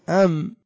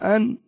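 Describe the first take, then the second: First: The word ends with a nasal m sound. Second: The word ends with a clear n sound. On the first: The speaker calls it right. "يعني مباشرة تنقلب إلى ميم" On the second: The speaker calls it wrong. "هل تقول أن؟"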